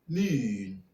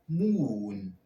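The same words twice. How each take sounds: First: The vowel is made further forward in the mouth. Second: The vowel is made far back in the mouth. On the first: This is the newer, modern pronunciation. "for the modern pronunciation ... goose fronting" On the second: This is the older, traditional pronunciation. "To pronounce this with a classic pronunciation"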